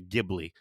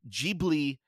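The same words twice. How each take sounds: First: The name is said with an English-style pronunciation. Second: The name is said with a Japanese-style pronunciation. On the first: "a lot of people in the West will say Ghibli" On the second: "how Hayao Miyazaki pronounces it, ... maybe that's the Japanese pronunciation"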